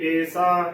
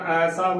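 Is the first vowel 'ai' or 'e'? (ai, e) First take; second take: e; ai. First: The first vowel is a closer 'e' sound. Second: The first vowel is an open 'ai' sound. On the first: The speaker calls it wrong. "ਏਸਾ ਗਲਤ ਉਚਾਰਨ ਹੋਵੇਗਾ" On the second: The speaker calls it right. "ਐਸਾ ਬੋਲਣਾ ਹੈ"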